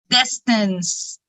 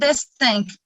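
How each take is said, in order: First: The c is sounded as an s. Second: The c is sounded as a k. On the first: The speaker calls it right. "we have letter E after letter C" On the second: The speaker calls it wrong. "Don't say it"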